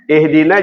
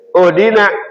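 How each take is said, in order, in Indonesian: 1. Kata ini diawali dengan vokal i. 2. Kata ini diawali dengan vokal u.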